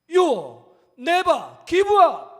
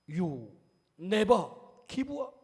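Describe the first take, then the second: First: It is said in a loud voice. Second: It is said in a somewhat louder voice. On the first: "마지막 큰 소리로" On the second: "조금 더 목소리를 높여서"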